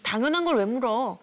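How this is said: The voice sounds cold and dismissive. The words say yes but the tone does not. The speaker calls it wrong. "비언어적인 목소리 톤이나 표정은 그렇지가 않잖아요"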